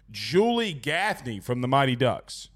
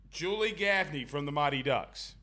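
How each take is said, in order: First: Low, slow, deliberate "Julie Gaffney"; spoken slow and lower. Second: "Gaffney" said much softer, almost to himself; soft repeat. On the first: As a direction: lay "Julie Gaffney" down slowly. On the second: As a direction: echo "Julie Gaffney" under the breath. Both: Shown as a demonstration. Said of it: "repeats quietly".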